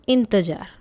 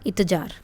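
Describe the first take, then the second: First: The first syllable has a nasal sound. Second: The first syllable has no nasal sound. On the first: The speaker calls it right. "जैसे ही ई के ऊपर बिंदी लगाई" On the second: The speaker calls it wrong. "अगर इसके ऊपर ये बिंदी ना लगी तो क्या बनेगा?"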